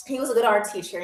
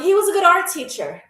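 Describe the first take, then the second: First: Low, subdued repeat with mock emotion; mock wistful. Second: "was" lifted high in an insistent tribute; stress on WAS. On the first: Artist remembering jailed professor, mock wistful and low. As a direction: say it lower, as a wistful tribute. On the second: Pretend. Artist defending jailed professor to viewers, stress on "was". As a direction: defend him, pitching "was" up.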